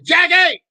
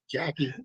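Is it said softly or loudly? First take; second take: loudly; softly. First: It is said loudly, almost yelled. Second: It is said fairly softly.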